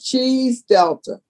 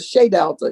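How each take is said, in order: First: The first word sounds like 'cheese'. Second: The first word sounds like 'shay'. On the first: It is the playful mispronunciation used by the group. "they were pronouncing it Cheese Delta" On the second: It is the French word meaning house of. "Shea is French, meaning the House of Delta"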